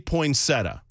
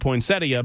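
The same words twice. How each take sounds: First: The ending is said without an 'ee' sound. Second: The ending is said with an 'ee' sound. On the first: This is how most people say it. "Most people say poinsettia" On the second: Every letter in the word is pronounced. "there's an extra I in there that no one pronounces"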